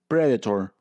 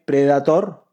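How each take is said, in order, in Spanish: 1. La palabra se dice con vocales y acento ingleses. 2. La palabra se lee letra por letra, al estilo español. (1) "pero en inglés se pronuncia predator" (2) "como se escribe predator"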